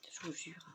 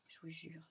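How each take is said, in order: First: Whisper. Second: Barely voiced, very soft; hushed under the breath; very quiet. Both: Real, not acted. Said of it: "Je parle tout bas".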